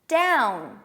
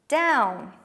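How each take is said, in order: No difference in how they are said.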